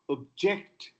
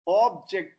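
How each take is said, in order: First: The stress is on the second syllable. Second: The stress is on the first syllable. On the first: It is used as a verb. "is verb" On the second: It is used as a noun. "is noun"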